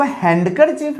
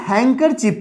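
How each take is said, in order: First: हैंडकरचीफ with the D sounded; wrong pronunciation. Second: हैंकरचीफ with the D silent; correct pronunciation. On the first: Teacher showing what we don't read, हैंडकरचीफ with a D. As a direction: say HAND-ker-chief, हैंडकरचीफ, D audible. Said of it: "हैंडकरचीफ नहीं पढ़ते". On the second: Teacher telling students how we read it, हैंकरचीफ without D. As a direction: say HANG-ker-chief, हैंकरचीफ, no D. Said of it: "हम लोग हैंकरचीफ पढ़ते हैं". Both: Shown as a demonstration.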